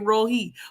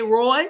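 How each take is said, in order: First: The name is said as two syllables. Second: The name is said as one syllable. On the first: "some say Rohi" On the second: "Some say Roy"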